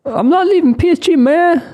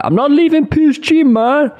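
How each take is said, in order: First: High, loud Southern twang impression; Alabama accent. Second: High put-on Mbappe accent, louder; clumsy high-pitched accent impression; switching accents clumsily. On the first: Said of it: "from Alabama?". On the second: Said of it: "What accent was that?".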